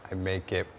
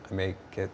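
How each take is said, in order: Both takes have the same delivery.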